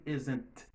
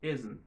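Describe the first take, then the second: First: The final T sound is pronounced strongly. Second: The final T sound is soft and weak. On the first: The speaker calls it wrong. "Ou pas faire son T assorti trop. Ou pas dire isn't" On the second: The speaker calls it right. "On dit isn't"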